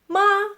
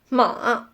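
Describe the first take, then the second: First: The pitch stays high and level. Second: The pitch dips low and comes back up. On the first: It means mother. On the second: It means horse.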